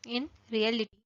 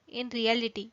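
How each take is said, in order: Both takes have the same delivery.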